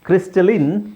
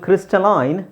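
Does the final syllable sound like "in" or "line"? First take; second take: in; line. First: The final syllable rhymes with "in". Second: The final syllable rhymes with "line". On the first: This is the American pronunciation. "ಕ್ರಿಸ್ಟಲಿನ್ American pronunciation" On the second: This is the British pronunciation. "ಕ್ರಿಸ್ಟಲೈನ್ British pronunciation"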